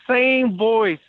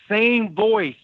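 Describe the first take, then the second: No difference in how they are said.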